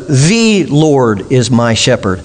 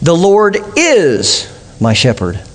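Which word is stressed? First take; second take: The; is. First: The stress is on "The". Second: The stress is on "is".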